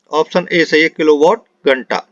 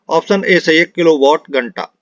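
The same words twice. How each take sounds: The two takes are said the same way.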